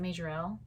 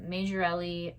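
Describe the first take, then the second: First: The name ends on a final 'l' consonant. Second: The name ends with an added final 'ee' vowel. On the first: "or is it Majorelle?" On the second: "I keep calling it Majorelli, which I feel like that's wrong"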